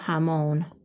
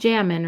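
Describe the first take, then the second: First: The stress is on the last syllable. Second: The stress is on the first syllable. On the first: The speaker calls it right. "Don't forget the accent mark" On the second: The speaker calls it wrong. "It's not jamón"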